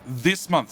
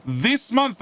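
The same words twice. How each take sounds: First: Said in the usual way. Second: "This month" shouted high and loud; emphatic hype. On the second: Acted. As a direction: punch "month" like a salesman. Hyping the update date.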